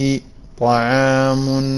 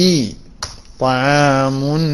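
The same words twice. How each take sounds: The two takes are said the same way.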